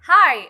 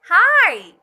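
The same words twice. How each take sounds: First: Hi with the I drawn out long and loud; excited greeting with a long Hi; stretched hi. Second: Hi! high, loud, vowel stretched; excited long hi. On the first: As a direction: stretch the vowel of Hi. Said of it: "suara I dalam hi diperpanjang". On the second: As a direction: greet a friend you're thrilled to see. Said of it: "Like this". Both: Shown as a demonstration.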